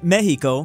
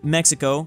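First: The word is said with the Spanish pronunciation. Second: The word is said with the English pronunciation. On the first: "the majority of Spain is saying Mexico" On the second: "I'm speaking English and I just said Mexico"

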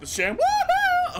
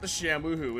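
First: It is screamed at full volume. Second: It is said at a normal, calm level.

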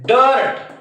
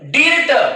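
First: The vowel sounds like 'er' before the r. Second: The vowel sounds like 'ee' before the r. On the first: The speaker calls it right. "आयचा उच्चार देखील अच होतो" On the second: The speaker calls it wrong. "डिर्ट नाही"

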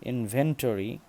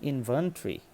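First: The ending does not sound like 'tree'. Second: The ending sounds like the word 'tree'. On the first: The speaker calls it wrong. "তাহলে আমাদের ভুল হবে" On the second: The speaker calls it right. "ইনভেন্টরি মানে শেষে যে এরকম ট্রি"

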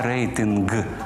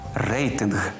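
First: The final consonant is a hard plosive g. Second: The final consonant is a breathy voiced h. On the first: The speaker calls it wrong. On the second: The speaker calls it right.

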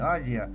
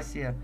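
First: The middle consonant is a voiced z sound. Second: The middle consonant is a voiceless s sound. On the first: The speaker calls it wrong. "не Азия" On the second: The speaker calls it right. "правильно говорить, Асия"

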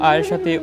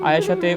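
No difference in how they are said.

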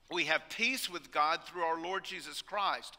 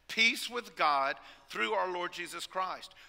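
First: The phrase is said plainly, without special emphasis. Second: The phrase is said with strong emphasis.

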